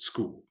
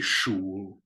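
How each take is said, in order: First: The word begins with an 'sk' sound. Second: The word begins with an 'sh' sound. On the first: The speaker calls it right. "You say it school" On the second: The speaker calls it wrong. "You don't say Schul"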